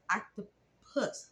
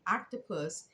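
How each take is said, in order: First: "octopus" drawn out with a rising tune, first vowel as in "cat"; slow rising slip on "octopus"; fumbled octopus. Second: "octopus" said crisply with "ahk" at the start and a falling tune; quick self-correction of "octopus"; corrected octopus. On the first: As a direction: stretch "octopus" questioningly, saying "ak-to-puss". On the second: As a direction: fix "octopus" firmly, "AHK-to-pus". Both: Real, not acted.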